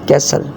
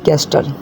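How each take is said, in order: First: The t sound is silent. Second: The t sound is pronounced. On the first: The speaker calls it right. "कैस कैसल" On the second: The speaker calls it wrong. "ना कि कैस्टल"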